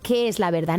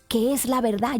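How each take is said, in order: First: The question sounds mocking and dismissive. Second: The question sounds earnest and desperate. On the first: The asker doubts anyone can know the truth. "era una pregunta mmm, eh, irónica" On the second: The asker sincerely needs to know the truth. "Era una pregunta de verdad desde lo más profundo de su corazón, en su desesperación"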